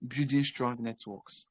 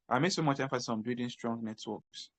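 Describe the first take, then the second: First: Building strong networks said slowly, each word weighted; slow emphasis. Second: Said in the usual way. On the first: Shown as a demonstration. Mentor stressing networking to freelancers, slow and deliberate.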